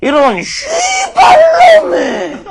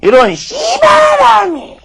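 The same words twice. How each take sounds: First: High, slow shout in a thick Jeolla accent; Jeolla dialect curse. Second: High, slow shout in a Gyeongsang accent; Gyeongsang dialect curse. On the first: Lecturer demos the Jeolla curse to the audience, high slow Jeolla-accent shout. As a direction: bellow it out Jeolla style, long and high. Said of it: "이렇게 씁니다". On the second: Lecturer demos the Gyeongsang curse to the audience, slow high Gyeongsang-accent shout. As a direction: shout it Gyeongsang style, drawn out. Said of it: "바로 이렇게 쓰입니다". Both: Shown as a demonstration.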